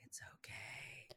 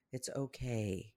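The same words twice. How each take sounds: First: Very soft, slow whisper; hushed, voiceless comfort; whispered reassurance. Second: Soft, slow, low-key comfort; softly voiced reassurance; gentle reassurance. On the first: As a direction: breathe it out as a soothing whisper. Soothing repeat, hushed. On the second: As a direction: soothe yourself quietly and slowly. Soothing herself, then repeats in whisper. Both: Shown as a demonstration.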